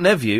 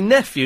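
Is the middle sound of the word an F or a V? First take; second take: V; F. First: The middle consonant is a V sound. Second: The middle consonant is an F sound. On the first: The speaker calls it wrong. "not nephew" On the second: The speaker calls it right. "it's definitely nephew"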